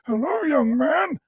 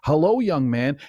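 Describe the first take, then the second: First: It is said in a creepy, terrible voice. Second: It is said in a cheerful, smiling voice.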